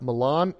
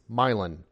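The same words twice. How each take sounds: First: It is said with the usual standard pronunciation. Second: It is said with a local Midwestern pronunciation. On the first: This is how the name is usually said elsewhere. "It's not Milan" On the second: This is the local name of the Indiana city. "it's Milan"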